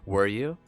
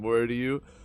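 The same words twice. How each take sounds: First: It is said in a put-on influencer voice. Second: It is said in a plain character voice. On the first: The speaker calls it right. "the influencer voice for Rodion" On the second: The speaker calls it wrong. "I don't like this voice"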